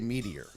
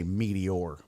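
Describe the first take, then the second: First: It sounds like the word meatier. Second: It does not sound like meatier. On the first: "I say meteor. Like like it's meatier than most other meats" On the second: "I don't say meteor"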